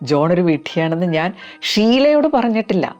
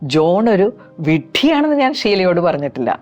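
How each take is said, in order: First: The stress falls on the word ഷീലയോട്. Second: The stress falls on the word വിഡ്ഢിയാണെന്ന്. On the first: It was told to others, but not to her. "വേറെ ഒരുപാട് പേരോട് പറഞ്ഞിട്ടുണ്ട്, പക്ഷെ ഷീലയോട് പറഞ്ഞിട്ടില്ല" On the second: Other insults were used, but not that word. "വിഡ്ഢിയാണെന്നുള്ള ഭാഗത്തിന് ഒരു stress കൊടുത്ത് പറയാം"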